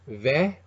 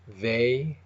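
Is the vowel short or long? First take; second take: short; long. First: The vowel is short. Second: The vowel is long.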